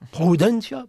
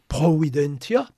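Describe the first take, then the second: First: The word is said fast, with syllables squeezed together. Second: Every syllable of the word is said in full. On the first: "vous avez tout de suite prudentia" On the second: "Si vous prononcez vite providentia"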